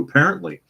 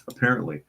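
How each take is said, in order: First: "Apparently" jumps high and loud in surprise; high amused "Apparently"; surprised. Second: Said in the usual way. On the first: Real, not acted.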